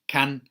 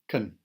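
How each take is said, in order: First: The word is said with a full vowel. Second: The word is said with a reduced vowel. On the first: "has a strong form" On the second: "weak form"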